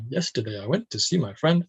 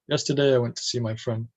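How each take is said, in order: First: The pitch moves up and down a lot. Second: The pitch stays mostly level throughout. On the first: The speaker calls it wrong. "instead of" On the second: The speaker calls it right. "keeping the intonation more flat"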